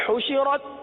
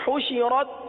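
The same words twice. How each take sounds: No difference in how they are said.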